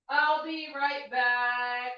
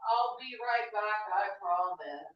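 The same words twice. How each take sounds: First: Clingy mock plea, drawn out; begging an ex back. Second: Clingy plea, quicker and off mic; begging an ex back. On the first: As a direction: plead theatrically while walking away. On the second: Pretend. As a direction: promise you'll return, needy. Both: Pleading as she leaves.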